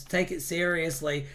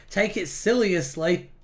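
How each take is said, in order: First: Said in the usual way. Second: "siliously" said as silly plus -ously, rising at the end; playful mispronunciation. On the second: Real, not acted. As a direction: make "siliously" a silly pun on seriously. Reads out two rival chat suggestions.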